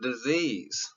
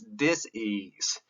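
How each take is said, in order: First: The middle consonant sounds like a z. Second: The middle consonant sounds like an s. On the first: It names an illness. "I just said it with a Z" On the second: It means a lack of ease. "It doesn't have a Z in it"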